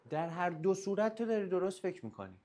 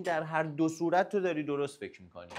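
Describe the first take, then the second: First: Higher, stressing داری; emphatic repeat. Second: Said in the usual way. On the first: Shown as a demonstration. Coach repeating his point to the listener, stressing داری. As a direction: lean on داری the second time. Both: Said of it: "repeated for emphasis".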